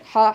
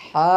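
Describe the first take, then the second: First: হা said short, no stretch; হা with a brief, unprolonged aa; short vowel. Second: হা with the aa drawn out; হা held long as a madd; long vowel. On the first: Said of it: "টান নাই". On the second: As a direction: stretch the vowel in হা. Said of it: "টান আছে". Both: Shown as a demonstration.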